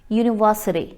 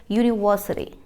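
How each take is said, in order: Both takes have the same delivery.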